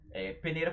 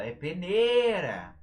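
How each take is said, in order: First: Said in the usual way. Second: PENEIRA with a long, loud, higher NEI; stretched stressed syllable. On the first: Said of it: "por exemplo, não tem acento". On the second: Shown as a demonstration. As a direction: hold the middle syllable of "peneira" like a call. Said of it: "a sílaba que a gente estende".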